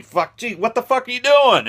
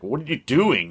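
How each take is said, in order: First: High, loud, indignant squeal; outraged shriek. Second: A touch higher, mildly baffled question; half-raised, confused ask; puzzled Brody. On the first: Shark yelling at Brody over the air tank, high outraged shriek. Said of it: "and he". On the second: Brody asking the shark with mild surprise. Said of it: "And he's like". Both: Retold or imitated.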